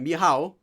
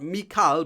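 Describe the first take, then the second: First: The middle consonant is a soft h sound. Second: The middle consonant is a hard k sound. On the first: The speaker calls it right. "but Mihao" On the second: The speaker calls it wrong. "not Mikal"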